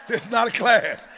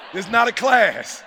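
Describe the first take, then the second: No difference in how they are said.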